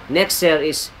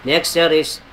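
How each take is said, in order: The two takes are said the same way.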